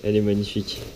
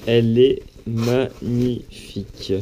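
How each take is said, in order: First: Said in the usual way. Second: "magnifique" drawn out syllable by syllable; slow, emphatic "magnifique" in open admiration. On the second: Real, not acted. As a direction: savour "magnifique" at half speed, each syllable separate. Repeats praise, drawn out emphatically.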